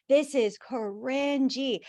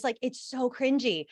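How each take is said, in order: First: "This is cringy" stretched out slowly, weight on "This"; slow emphatic cringy. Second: Said in the usual way. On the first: Real, not acted. Host lingering over "This is cringy", slow and emphatic. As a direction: drag out "This is cringy" to savour it.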